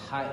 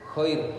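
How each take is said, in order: First: It starts with a soft breathy h. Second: It starts with a raspy throat kh. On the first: The speaker calls it wrong. "bukan hai" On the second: The speaker calls it right. "tapi khair, kho"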